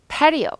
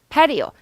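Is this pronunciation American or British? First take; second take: American; American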